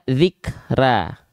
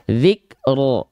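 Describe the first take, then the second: First: The final r is light, vowel sounding like a. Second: The final r is heavy, vowel sounding like o. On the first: The speaker calls it wrong. "kenapa nggak dibaca zikra? Kenapa tidak dengan vokal A?" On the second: The speaker calls it right. "kita malah melafalkan dia dengan vokal O"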